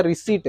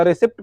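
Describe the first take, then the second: First: "रिसीट" with long "ee" and silent p; correct pronunciation. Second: "रिसिप्ट" with the p sounded before t; mistaken pronunciation. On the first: Teacher correcting students on receipt, "रिसीट" with silent p. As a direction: say "रिसीट" like "ri-seet", no p. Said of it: "उसका नाम शुद्ध है रिसीट". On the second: Teacher showing the misreading of receipt, "रिसिप्ट" with sounded p. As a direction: say "रिसिप्ट" with short vowel and audible "pt". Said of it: "तो रिसिप्ट नहीं होता". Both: Shown as a demonstration.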